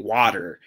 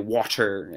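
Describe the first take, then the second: First: The T is dropped, in her own accent. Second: The T is crisp, in a posh accent.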